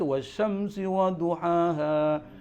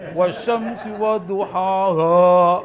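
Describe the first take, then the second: First: The words are said plainly and lightly. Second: The words are said heavily and overemphasized. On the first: The speaker calls it right. "Biasa aja" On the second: The speaker calls it wrong. "Jangan ... Wah, nggak begitu"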